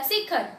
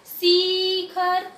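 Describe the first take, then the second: First: शिखर with a quick, short first vowel; simple short vowel. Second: शिखर stretched as "seee-khar"; forceful long vowel. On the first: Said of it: "मैंने simple बोला". (शिखर, छोटी इ के साथ) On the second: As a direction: push and drag out the first vowel of शिखर. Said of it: "शिखर बोलूंगी जोर से". (शिखर में शी पर ज़ोर, खींचकर) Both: Shown as a demonstration.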